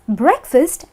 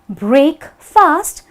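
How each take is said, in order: First: It is said as one word with a light second vowel. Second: It is said as two separate, fully stressed words. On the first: The speaker calls it right. "breakfast is breakfast" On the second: The speaker calls it wrong. "and not break fast"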